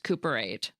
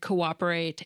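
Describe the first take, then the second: First: The two o vowels merge into one sound. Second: The two o vowels are pronounced separately. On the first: The speaker calls it wrong. "running them together" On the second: The speaker calls it right. "pronounce both vowels separately"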